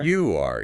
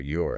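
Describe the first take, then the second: First: It is said as two full words. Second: It is said as one contracted word.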